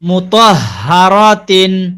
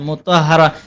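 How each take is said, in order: First: The word is said in full, ending in -tin. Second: The word is cut short, with no -tin ending.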